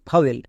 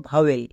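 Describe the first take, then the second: No difference in how they are said.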